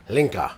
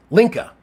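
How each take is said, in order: First: Lower, falling "Linka", said as a statement; Linka settled with a falling tune. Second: High questioning "Linka", pitch up at the end; Linka with a rising tune. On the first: Streamer settling on a viewer's name, falling "Linka". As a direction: land "Linka" firmly, pitch dropping. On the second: Streamer guessing a viewer's name, rising "Linka". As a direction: try "Linka" as a guess, lifting it. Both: Shown as a demonstration. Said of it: "Oh, Link-, okay".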